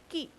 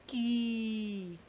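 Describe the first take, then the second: First: The vowel is short and quick. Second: The vowel is drawn out long. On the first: "this pronunciation is very quick" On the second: "not ki. That is dirgha e"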